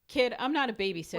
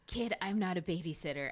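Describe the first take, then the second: First: It is said in the speaker's normal voice. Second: It is said in a put-on snake voice.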